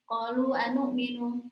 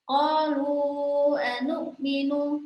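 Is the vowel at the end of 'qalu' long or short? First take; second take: short; long. First: The vowel at the end of 'qalu' is short. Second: The vowel at the end of 'qalu' is lengthened. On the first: The speaker calls it wrong. "Jadi dibaca biasa saja" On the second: The speaker calls it right. "dibacanya panjang"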